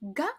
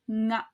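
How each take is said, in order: First: It starts with a plain hard g sound. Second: It starts with a nasal ng sound. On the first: "pronounced as ga" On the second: "as a velar nasal sound"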